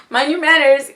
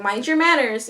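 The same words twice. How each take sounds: First: Louder, lofty "Mind your manners"; a grand planet scolding a visitor, louder; haughty warning. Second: Said in the usual way. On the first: Acted. Saturn warns whoever enters her domain, loud and lofty. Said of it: "You're entering Saturn's domain". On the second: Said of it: "You're entering Sagittarius's domain".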